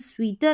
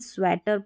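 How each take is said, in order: First: The first vowel sounds like a long 'ee'. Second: The first vowel sounds like a short 'e'. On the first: The speaker calls it wrong. "ए करके हम स्वीटर नहीं पढ़ेंगे" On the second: The speaker calls it right. "हम स्वेटर पढ़ेंगे"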